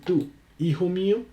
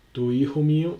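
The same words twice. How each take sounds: First: "tú" set apart high, then a pause before "hijo mío"; stressed pronoun tú. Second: Said in the usual way. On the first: Shown as a demonstration. Teacher contrasting pronoun with possessive, "tú" stressed and set apart. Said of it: "ahora sí, "tú, hijo mío". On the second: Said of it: "ahora sí".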